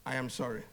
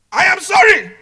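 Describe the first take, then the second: First: Soft, low, heartfelt sorry; sincere apology. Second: Shouted, high and very loud insincere sorry; angry apology. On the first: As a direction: apologize quietly and mean it, pitch dropped right down. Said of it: "Which one do you believe?". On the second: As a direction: snap out the apology at full volume. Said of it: "Same sentence, two different meaning". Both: Shown as a demonstration.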